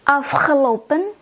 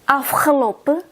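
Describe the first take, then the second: First: The final n sound is clearly pronounced. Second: The final n sound is left off. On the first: "I will read with the end" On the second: "then I will read without the end"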